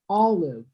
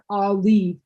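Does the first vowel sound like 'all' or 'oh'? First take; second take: all; oh. First: The first vowel sounds like 'all'. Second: The first vowel sounds like 'oh'. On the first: The speaker calls it right. "It's all and then live" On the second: The speaker calls it wrong. "not oh, not olive"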